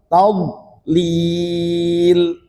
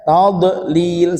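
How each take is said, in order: First: The d sound is held without any echo. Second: The d sound is bounced with an echo. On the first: The speaker calls it right. "Tad ditahan saja" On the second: The speaker calls it wrong. "jangan sampai seperti dikolkolahkan, ini keliru ... salah"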